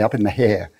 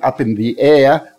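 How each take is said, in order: First: The last word starts with an h sound. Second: The last word starts with a vowel sound. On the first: "I'd say up in the hair" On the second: "instead of saying up in the air"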